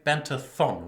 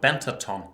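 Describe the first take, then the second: First: The last syllable starts with a th sound. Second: The last syllable starts with a plain t sound. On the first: "In English you would say Bentathon" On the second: "my pronunciation of Bentaton"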